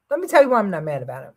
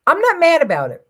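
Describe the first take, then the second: First: Fast, tumbling "Let me tell you why I'm not mad about it"; quick throwaway delivery; rushed explanation. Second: NOT hit high and loud, falling after; a high, loud "not" that falls away; emphatic denial. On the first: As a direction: hurry through the whole line. Quick follow-up explaining himself. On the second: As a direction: stress the word "not" hard and high. Insists he is not mad. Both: Real, not acted.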